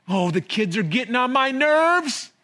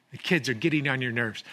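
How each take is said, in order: First: Higher, exasperated complaint with a sigh-like oh; fed-up groan. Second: Said in the usual way. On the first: Retold or imitated. Imitating a worn-out parent griping about the kids, exasperated.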